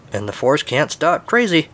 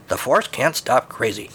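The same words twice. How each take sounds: First: Lightly voiced rat, slow and higher; taunting rat. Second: Slow, understated drone; droning rat. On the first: Blast Shield Rat warning Luke, slow mild taunt. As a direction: draw it out as a higher-pitched taunt. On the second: Rat's voice nagging over Red Leader, slow mild drone. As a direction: drone it slowly, with little lift. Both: A narrator's reading. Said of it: "over the droning rat's voice".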